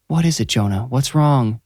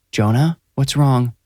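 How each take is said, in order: First: Cooing. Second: Gentle. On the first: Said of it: "she cooed". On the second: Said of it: "saying his name gently". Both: A narrator's reading.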